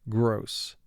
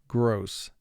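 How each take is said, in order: No difference in how they are said.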